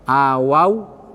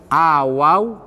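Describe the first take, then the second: Both takes have the same delivery.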